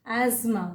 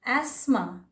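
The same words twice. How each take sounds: First: "एज़मा" with a buzzed z; alternative pronunciation. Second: "एस्मा" with a hissed s; alternative pronunciation. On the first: Teacher showing the other accepted "एज़मा", with a z. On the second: Teacher showing one accepted "एस्मा", with an s. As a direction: keep the s voiceless in "एस्मा". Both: Shown as a demonstration. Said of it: "ये दोनों ही".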